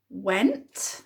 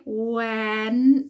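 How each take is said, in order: First: Said in the usual way. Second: Went stretched out sound by sound, louder; said slowly. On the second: Shown as a demonstration. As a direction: draw out every sound of went. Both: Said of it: "Let's say it slowly".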